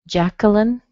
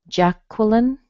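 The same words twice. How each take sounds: No difference in how they are said.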